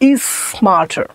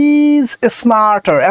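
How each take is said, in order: First: The two s sounds merge into one. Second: Both s sounds are said separately. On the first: The speaker calls it right. "দুইটা এস মিলে একটা এস হবে" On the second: The speaker calls it wrong. "এতক্ষণ বলার time নাই"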